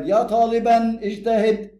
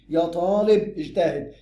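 First: "طالبا" drawn out slowly, ending in -an; louder, slow model phrase, "طالبا" ending -an; accusative ending. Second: "طالب" slow, ending in -u without tanween; slow model phrase, "طالب" as taalibu; nominative ending. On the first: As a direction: chant out "طالبا" slow and high with a clear -an. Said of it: "ومنصوب يبقى غير مقصودة". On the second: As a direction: stretch "طالب" and close it on -u. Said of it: "مرفوع أهي". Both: Shown as a demonstration.

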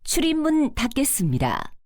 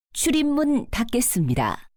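The two takes are said the same way.

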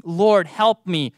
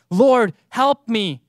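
First: Slow, earnest plea. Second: Slow and louder; louder plea. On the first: Preacher repeats the woman's words as a slow plea. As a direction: say it slowly, like a prayer. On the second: Preacher repeats the woman's plea louder, slowly. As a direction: press the plea harder. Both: Acted. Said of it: "these same words that this woman was using".

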